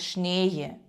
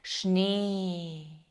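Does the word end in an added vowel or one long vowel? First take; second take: added vowel; long vowel. First: An extra vowel sound is added at the end. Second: The vowel is one long steady sound. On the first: The speaker calls it wrong. "не казати шніє" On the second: The speaker calls it right. "це допомагає нам лишатися на одній лінії"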